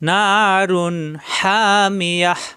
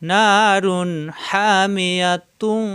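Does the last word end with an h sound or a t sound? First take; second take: h sound; t sound. First: The last word ends with a stopped h sound. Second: The last word ends with a t sound and vowel. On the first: The reader stops at this word. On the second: The reading continues into the next word.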